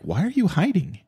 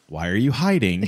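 First: It sounds like a sincere, genuine question. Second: It sounds like a rhetorical, accusing question.

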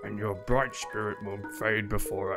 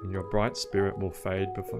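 First: It is read in a put-on old man voice. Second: It is read in a normal, non-elderly voice. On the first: The speaker calls it right. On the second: The speaker calls it wrong.

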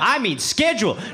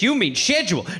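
First: Schedule is said the American way. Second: Schedule is said the British way.

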